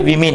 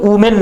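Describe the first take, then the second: First: The first syllable is said like 'wi'. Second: The first syllable is said like 'woo'. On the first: The speaker calls it right. "ये विमेन है" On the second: The speaker calls it wrong. "ये वुमेन नहीं है"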